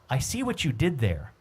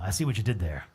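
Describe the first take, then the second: First: The voice is the speaker's ordinary pitch. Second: The voice is put on, lowered and deep. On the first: The speaker says it himself. "I'll use it in my voice" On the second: Someone else said it. "That's my Chuck voice. ... You always lower voice like that"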